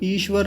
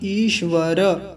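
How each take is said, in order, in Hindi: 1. अंतिम र आधा है, इसमें कोई स्वर नहीं। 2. अंतिम र पूरा है, इसमें स्वर है। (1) "ईश्वर नहीं" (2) "र जो है पूरा है"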